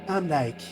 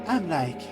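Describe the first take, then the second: Both takes have the same delivery.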